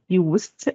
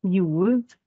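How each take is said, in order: First: "used" said slowly, with the s as s; slow demo. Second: "used" said slowly, with the s as z; slow demo. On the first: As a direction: stretch out "used" with a hissed s. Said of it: "or sometimes we pronounce it used". (نطق "used" ببطء بصوت س) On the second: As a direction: stretch out "used" with a voiced z. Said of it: "زي used". (نطق "used" ببطء بصوت ز) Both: Shown as a demonstration.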